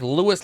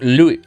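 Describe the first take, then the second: First: The name ends with an s sound. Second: The name ends without an s sound. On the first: "like Lewis Hamilton" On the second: "without the S"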